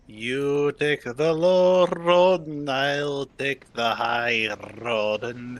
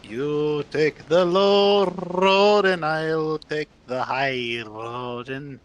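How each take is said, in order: First: Put-on slow, half-slipped Scottish accent, sung-out road lines; a hint of Scottish accent, slow and drawn out. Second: Put-on slow, full Scottish accent, R's rolled hard; Scottish accent played up, slow, rolled R's like Sean Connery. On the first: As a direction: ease into a light Scottish accent, taking your time. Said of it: "why are you going Russian?". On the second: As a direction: lean fully into the Scottish accent and roll every R. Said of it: "They roll their R's".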